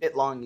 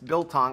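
First: The word begins with 'bit', L after T. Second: The word begins with 'bil', L before T. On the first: The speaker calls it wrong. "Bitlong, you say, right?" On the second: The speaker calls it right. "it's Biltong"

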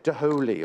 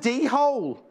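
First: The word is said as three syllables, da-ho-lee. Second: The word is said as two syllables, dee-hole. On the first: The speaker calls it right. "I'm sure you say Daholi or something like that" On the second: The speaker calls it wrong. "I'm sure you don't say it like that"

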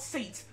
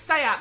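First: It is said in one syllable, like seat. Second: It is said in two syllables, like say-ah. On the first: The speaker calls it wrong. "not Seat" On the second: The speaker calls it right. "it's pronounced as Saya"

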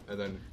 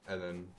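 Both takes have the same delivery.

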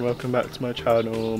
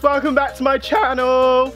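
First: The voice is low, flat and sad. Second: The voice is loud and overly energetic. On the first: "I don't want my voice to sound kind of sad or upset" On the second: "I wouldn't want to be shouting"

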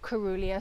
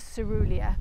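First: The first syllable does not sound like 'see'. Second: The first syllable sounds like 'see'. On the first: The speaker calls it wrong. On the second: The speaker calls it right.

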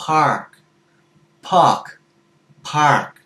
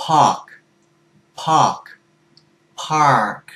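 The two takes are said the same way.

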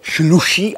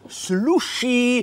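First: The word begins with a sh sound. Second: The word begins with an s sound. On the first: The speaker calls it wrong. "neříká se šluší" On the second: The speaker calls it right. "ale s sluší"

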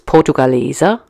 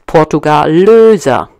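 First: The fourth syllable has a plain 'e' vowel. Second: The fourth syllable has a rounded 'ö' vowel. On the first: It means coins from Portugal. The speaker calls it right. "the correct pronunciation would be portugaleser" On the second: It borrows from the name of other heavy coins. The speaker calls it wrong. "The portugaleser turned into portugalöser"

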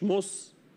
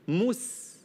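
First: The s sound is heavy and emphatic. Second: The s sound is light and thin. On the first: The speaker calls it wrong. "مش مس" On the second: The speaker calls it right. "مس مستقيم"

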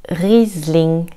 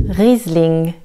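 Both takes have the same delivery.

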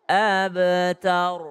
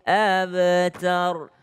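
The two takes are said the same way.

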